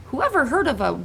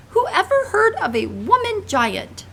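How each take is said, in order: First: Said in the usual way. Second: Much higher, louder, slow giant shout. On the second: Acted. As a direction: bellow it out in outrage. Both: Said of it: "shouted the B F G".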